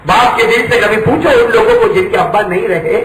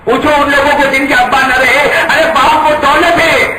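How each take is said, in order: First: Said in the usual way. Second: Higher and louder repeat of the appeal; a preacher pressing the point harder; intensified appeal. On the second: Real, not acted. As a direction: raise it up on the repeat. Repeated, raised.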